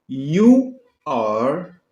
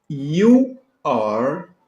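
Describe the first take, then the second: The two takes are said the same way.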